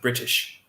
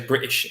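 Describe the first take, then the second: First: The middle t sound is clearly pronounced. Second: The middle t sound is dropped.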